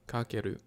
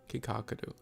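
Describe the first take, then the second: First: The name is said with three syllables. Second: The name is said with four syllables. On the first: The speaker calls it right. "but I think Kakeru" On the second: The speaker calls it wrong. "I say Kikakaru"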